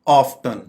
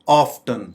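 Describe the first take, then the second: The two takes are said the same way.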